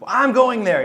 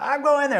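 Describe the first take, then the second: First: Higher, insistent "I'm going there"; stubborn. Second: "going" pushed up high, dead set; stubborn. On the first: Stubborn teen insisting to the college on the phone, defiant. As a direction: dig in your heels, teen defiance. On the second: Teen repeating to the college that he is going anyway, stubborn. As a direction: say it again, refusing no. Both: Retold or imitated. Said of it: "I'm a stubborn little bastard".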